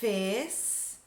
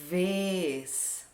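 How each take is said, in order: First: The word begins with an f sound. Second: The word begins with a v sound. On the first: The speaker calls it wrong. "Esse som, ó, de fez é o F" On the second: The speaker calls it right. "O som correto é v"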